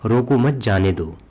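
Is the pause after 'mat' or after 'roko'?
after roko. There is a pause right after 'roko'. Stop him and do not let him go.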